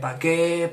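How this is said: It is said in Murcian Spanish pronunciation. "aquí en Murcia se dice"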